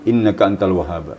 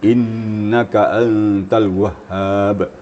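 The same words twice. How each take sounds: First: The long vowels are clipped without stress. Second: The long vowels are stretched and stressed. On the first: The speaker calls it wrong. "Jangan ... bagaikan sayur tanpa garam" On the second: The speaker calls it right.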